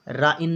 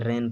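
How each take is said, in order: First: The vowel sounds like 'eye'. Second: The vowel sounds like 'ay'. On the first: The speaker calls it wrong. "राइन नहीं पढ़ेंगे" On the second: The speaker calls it right. "रैन पढ़ेंगे"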